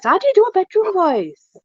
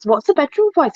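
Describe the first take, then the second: First: High-pitched squeak. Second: Breathy whispered question; whispering. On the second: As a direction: whisper it, puzzled. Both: Real, not acted.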